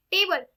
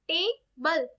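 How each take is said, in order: First: Said in the usual way. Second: table split into two beats, टे, then बल; syllable by syllable. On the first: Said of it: "table कैसे बोली जाती है". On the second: Shown as a demonstration. Teacher showing the two syllables in a word, table split as टे-बल. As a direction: break table after टे, pause, then बल. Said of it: "table के अंदर टू होते हैं".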